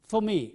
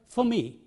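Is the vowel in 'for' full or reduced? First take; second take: reduced; reduced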